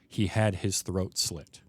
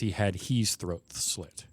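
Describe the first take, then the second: First: It is said in a natural American accent. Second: It is said with a subtly non-American pronunciation. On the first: "the line is" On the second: "the way he says it is"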